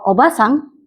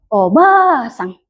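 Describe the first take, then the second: First: The vowel in the middle syllable is short. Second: The vowel in the middle syllable is long. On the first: It means aunt. "itu artinya tante atau bibi" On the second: It means grandmother. "ba-nya panjang, itu artinya nenek"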